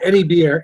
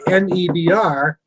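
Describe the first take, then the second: First: The letters are run together quickly and smoothly. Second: The letters are spelled out slowly and separately.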